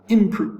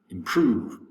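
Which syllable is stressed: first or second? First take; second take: first; second. First: The stress is on the first syllable. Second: The stress is on the second syllable. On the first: The speaker calls it wrong. "so it's not improve" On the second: The speaker calls it right. "Prove, the second syllable, ha- has the accent"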